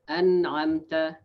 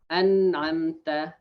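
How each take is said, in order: The two takes are said the same way.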